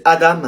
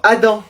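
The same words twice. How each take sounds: First: Adam ending in a clear "am"; Adam with the final m fully sounded; sounded final consonant. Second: Adam ending in a nasal "an"; Adam with the final m swallowed into a nasal vowel; French nasal ending. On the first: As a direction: say Adam as "A-damme". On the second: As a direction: say Adam as "A-dan", no m heard. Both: Acted. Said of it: "Je préfère qu'on dise Adam".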